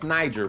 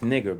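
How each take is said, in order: First: The middle consonant is a soft j sound. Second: The middle consonant is a hard g sound. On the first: This is how others say the name. The speaker calls it wrong. "they turn that G into a J" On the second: This is how the reference audio says the name. The speaker calls it right. "That's not Niger"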